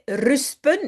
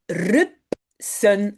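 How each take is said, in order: First: The S sound comes before the P sound. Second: The P sound comes before the S sound. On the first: A young child's mispronunciation of the word. The speaker calls it wrong. "ils ont inversé S et P" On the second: The standard form of the word. The speaker calls it right. "en néerlandais, c'est rupsen"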